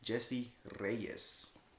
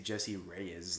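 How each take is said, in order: First: It is said with a Mexican accent and rolled R. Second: It is said with a plain English accent.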